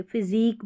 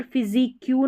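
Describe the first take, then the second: First: फिजिक ending on a plain k; corrected physique. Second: फिजिक क्यू with "kyu" stuck on the end; mispronounced physique. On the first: Teacher giving learners the right word, corrected pronunciation. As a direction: say फिजिक as "fizeek", stopping at the k. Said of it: "फिजिक बोलते". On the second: Teacher showing learners the wrong reading, mispronounced. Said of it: "नहीं बोलते". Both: Shown as a demonstration.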